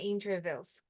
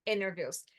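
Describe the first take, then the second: First: "Interviews" with the T said clearly; audible T in "Interviews"; T pronounced. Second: "interviews" with the T dropped; "interviews" with no T, like "inner". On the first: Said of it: "Eu acho que eu vi um T aqui". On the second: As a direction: blur the T in "interviews" into an N. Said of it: "Que daí também poderia ser". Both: Shown as a demonstration.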